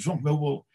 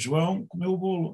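First: There is no pause after João. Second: There is a pause after João.

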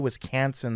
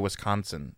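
First: It is said with a Midwestern accent. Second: It is said with a Californian accent. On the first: The speaker calls it right. "I even say Wisconsin the right way" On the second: The speaker calls it wrong. "If I stayed in California, I would just say Wisconsin. See how stupid that sounds?"

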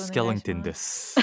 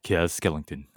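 First: It is said in a normal voice. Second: It is said in a lowered, deep voice.

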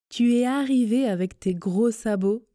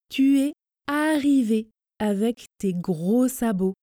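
First: The sentence is spoken somewhat faster and fluidly. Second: The sentence is spoken slowly and carefully. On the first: "la même chose, un peu plus vite, vitesse intermédiaire" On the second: "On commence lentement, à la vitesse tortue"

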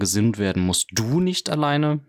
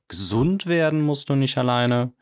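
First: The stress is on the word du. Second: The stress is on the word gesund.

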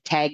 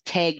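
First: The vowel sounds like the one in tag. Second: The vowel sounds like the one in egg. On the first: "Tague like you're it" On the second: "Tague like egg with a T on the front"

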